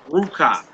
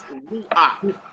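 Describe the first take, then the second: First: The word ends with a 'ka' sound. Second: The word ends with an 'ak' sound. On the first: The speaker calls it wrong. "it's not pronounced ruka" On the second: The speaker calls it right. "It's pronounced as an ak"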